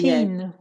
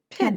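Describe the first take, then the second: First: The vowel is a long ee sound. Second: The vowel is a short i sound. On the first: The speaker calls it wrong. "don't say" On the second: The speaker calls it right. "It's not a long E"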